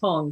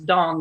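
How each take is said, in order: First: The word begins with a voiceless T sound. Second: The word begins with a voiced D sound. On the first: The speaker calls it wrong. "not tong, because it looks like tong" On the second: The speaker calls it right. "it's dong"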